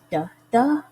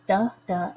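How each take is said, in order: First: Second "the" punched louder, first "the" light; light "the", then hit the second "the" hard; "the THE", weak then strong; iamb stress. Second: First "the" stressed, second "the" lighter; "THE the", strong then weak; trochee stress. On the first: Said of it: "second syllable is stressed". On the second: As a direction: hit the first "the", let the second "the" fall away. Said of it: "the first syllable is emphasized". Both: Shown as a demonstration.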